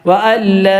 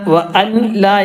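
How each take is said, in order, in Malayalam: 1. n പൂർണ്ണമായി ഇരട്ട l-ൽ ലയിക്കുന്നു. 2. n, l-ന് മുമ്പ് വേറെയായി ഉച്ചരിക്കുന്നു. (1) "കൂട്ടി യോജിപ്പിക്കുക, മണിക്കരുത്" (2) "എന്ന് പറയരുത്"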